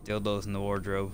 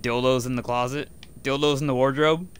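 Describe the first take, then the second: First: Flat falling title read; like a book title. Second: Louder rising incredulous question; amused disbelief. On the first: Shown as a demonstration. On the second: Real, not acted. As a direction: toss it up in amused shock. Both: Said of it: "That's a fucking name for a book".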